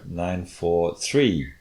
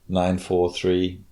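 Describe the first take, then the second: First: The last number has a rising pitch. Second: All three numbers are said flat and even. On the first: "with a rising pitch on that third one" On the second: "just flat"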